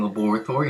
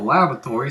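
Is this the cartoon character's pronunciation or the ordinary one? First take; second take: character's; ordinary. First: It is pronounced the way the cartoon character says it. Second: It is pronounced the ordinary, everyday way.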